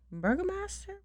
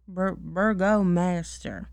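First: "Burgomaster?" tried out with a high questioning rise; puzzling over "Burgomaster?" aloud; first go at "Burgomaster?", rising, unsure; unsure word. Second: "burgomaster" said slowly and deliberately, falling; careful repeat. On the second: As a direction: settle on "burgomaster", spelling it out slowly. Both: Shown as a demonstration.

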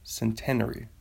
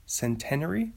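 First: Centenary as sen-TEN-uh-ree, falling at the end; centenary with second-syllable stress and falling tune; trying a pronunciation. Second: Centenary as sen-TEN-uh-ree, rising into a question; questioning Centenary, second-syllable stress; doubtful pronunciation. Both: Shown as a demonstration. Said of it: "don't know how to say it".

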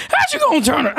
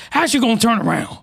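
First: Cracked, higher outraged question, cut off; voice crack again. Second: Said in the usual way. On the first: Real, not acted. Retrying the line for viewers, voice cracking higher. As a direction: voice breaks on "How you gonna turn ar-". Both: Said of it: "the voice crack twice".

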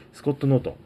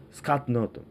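First: Said in the usual way. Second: スカット with an open "a" in place of "o"; スカット・ノートン, first vowel opened to "ah"; English-style pronunciation. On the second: Shown as a demonstration.

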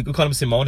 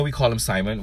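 First: Simone, stressed on the second syllable with a long "oh"; nickname pronunciation. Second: Said in the usual way. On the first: Shown as a demonstration. Giving a coworker's nickname on the podcast, Simone said "see-MOHN". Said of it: "His name is Simon". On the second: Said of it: "We, we call him Simone".

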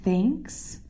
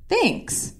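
First: "Thanks?" softly, lifting into a question; questioning echo. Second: Soft, high-pitched "thanks"; quick soft reply, pitched up; imitated reply. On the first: Retold or imitated. Echoes the reply in disbelief. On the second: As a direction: toss out a high, small thanks. Quoting boyfriend's unexpected reply.

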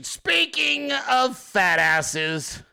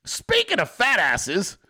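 First: SPEAKING stretched very long and high; drawn-out segue. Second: Said in the usual way. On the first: Real, not acted. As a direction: hold "Speaking" out slowly, higher-pitched. Segue repeated, stretched for effect.

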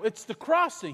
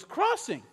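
First: Said in the usual way. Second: High, questioning Crossing?; surprised echo. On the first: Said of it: "And I go". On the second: Retold or imitated. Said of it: "He goes".

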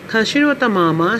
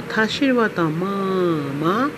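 First: MA kept high and level; first-tone ma. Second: Slow MA dipping down and back up; third-tone ma. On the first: Trainer introduces her mother in Mandarin, "ma" in first tone. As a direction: say "ma" short and steady on a high tone. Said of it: "she is my mother". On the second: Trainer shows mother turning into horse, "ma" in third tone. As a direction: draw "ma" out in a falling-rising swoop. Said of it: "she is my hers". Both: Shown as a demonstration.

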